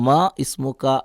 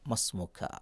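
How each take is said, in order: First: The i-vowel of ismu is pronounced separately. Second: The i-vowel is dropped, linking ma to smu. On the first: The speaker calls it wrong. "പലപ്പോഴും ആളുകൾക്ക് തെറ്റിക്കുന്നതാണ്" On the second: The speaker calls it right. "അല്ല"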